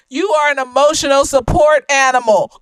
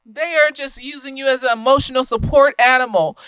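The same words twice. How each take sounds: First: Support said with a firm fall, a bit louder; stress on support. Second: Said in the usual way. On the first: Shown as a demonstration. Telling the listener straight out, with stress on support. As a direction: drive home the word support.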